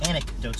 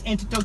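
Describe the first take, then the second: First: The word begins with the sounds 'anec'. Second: The word begins with the sounds 'antic'. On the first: "instead of anecdotes" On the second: "they'll say, yo, all these anecdotes you've been getting up to, antics"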